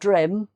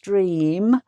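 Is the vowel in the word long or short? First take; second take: short; long. First: The vowel is short, like in 'him'. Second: The vowel is long, like in 'seem'. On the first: The speaker calls it wrong. "It's not drim" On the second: The speaker calls it right. "it's dream"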